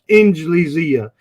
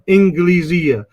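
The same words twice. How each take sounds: First: The consonant after n is a soft j. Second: The consonant after n is a hard g. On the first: "Some people pronounce it the Jim of the Arabs" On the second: "Some people will pronounce the Jim like Misr"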